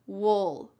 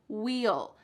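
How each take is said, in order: First: The word is reduced, sounding like 'wool'. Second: The word is said fully and clearly, like 'wheel'. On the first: "we often reduce this and it just sounds like wool" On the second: "This is the clear pronunciation"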